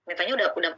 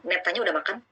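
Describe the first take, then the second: First: "udah" falls like a statement, no question lift; no question intonation on "udah"; flat statement tune. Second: "udah makan?" lifted as a real question; rising tone on "makan?"; question intonation. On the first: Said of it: "tidak menunjukkan nada tanda tanya". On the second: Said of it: "nada tanya". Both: Shown as a demonstration.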